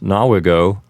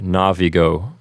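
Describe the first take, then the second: First: The second consonant is a w sound. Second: The second consonant is a v sound.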